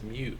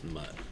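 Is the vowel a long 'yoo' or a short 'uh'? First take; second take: long yoo; short uh. First: The vowel is a long 'yoo', as in 'cute'. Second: The vowel is a short 'uh', as in 'cut'. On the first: The speaker calls it right. "It's pronounced mute, like muted" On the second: The speaker calls it wrong. "It's not pronounced mutt"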